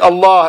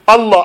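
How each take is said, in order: First: The name is pronounced in the standard way. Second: The name is pronounced in a distorted way. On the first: The name is said as it should be. The speaker calls it right. "instead of saying Allah" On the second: The name is being corrupted. The speaker calls it wrong. "they say things perverting the name of Allah"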